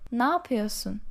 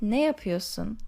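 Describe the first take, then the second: First: It is said in a shortened, reduced form. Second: Every sound is pronounced in full. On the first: "we generally pronounce it like" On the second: "even though it's written with"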